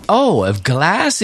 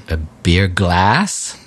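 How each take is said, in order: First: Slow, higher "Oh, a glass" with a drawn-out American "glass" that finally clicks; amused American barman catching on; barman's American "glass". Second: Slow, drawn-out "A beer glass?" with "glass" leaned on and lower; over-enunciate "glass" slowly for a confused barman; "glass" pulled long and low, spelled out for a foreigner; stress on glass. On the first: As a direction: mimic the barman finally getting it, slow and high. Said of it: "il me dit". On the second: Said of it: "j'accentue sur le mot glace". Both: Retold or imitated.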